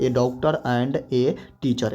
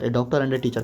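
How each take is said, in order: First: Very slow, word by word; drawn-out classroom example; slow dictation. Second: Said in the usual way. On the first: Shown as a demonstration. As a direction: dictate it for students to write. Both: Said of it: "कह कर देखिए".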